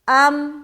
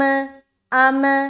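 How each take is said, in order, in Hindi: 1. अंतिम m साफ़ रुक जाता है, बिना किसी गूँज के। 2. अंतिम m गूँज के साथ वापस लौटता है। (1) "हमारी आवाज स्टक हो जाएगी। अम ऐसा करना है" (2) "अगर कलकला वाली सूरत होगी तो अम ऐसा हो जाएगा"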